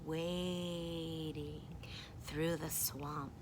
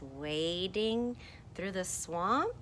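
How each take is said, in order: First: Low, slow and softer; demonstrated wading. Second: Said in the usual way. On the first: Shown as a demonstration. Reader showing how you go through the swamp, slow and low. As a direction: draw out WADING slowly and low. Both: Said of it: "Here's how you go".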